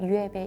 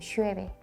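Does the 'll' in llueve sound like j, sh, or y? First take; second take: y; sh. First: The ll is pronounced like y. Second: The ll is pronounced like sh. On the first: This is how it is said in some other countries. "이응 발음하기도 하고" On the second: This is how it is said in Argentina or Uruguay. "시읒으로 발음을 하고"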